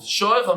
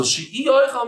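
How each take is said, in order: First: Said in the usual way. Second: "she'oichal" with a raised ee after "she"; added E. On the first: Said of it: "how you pronounce it". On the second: Shown as a demonstration. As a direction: lean high on the inserted ee in "she'oichal". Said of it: "a little bit of a E".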